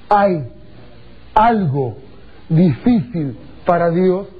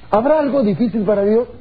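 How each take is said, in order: First: Slow, weighty "¿Hay algo difícil para Dios?" with each word set apart; emphasized key phrase. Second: Said in the usual way. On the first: Shown as a demonstration. Preacher stressing the verse to circle, slow and weighty. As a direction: lean on "algo" and "difícil" slowly. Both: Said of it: "encierren en un pequeño circulito la frase".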